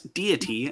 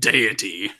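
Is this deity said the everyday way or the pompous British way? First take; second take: everyday; pompous British. First: It uses the speaker's everyday pronunciation. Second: It uses a pompous, British-sounding pronunciation. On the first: The speaker calls it right. "as I as I say it" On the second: The speaker calls it wrong. "being pompous and saying deity"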